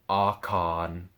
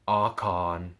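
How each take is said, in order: First: The two words run together as one. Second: The same.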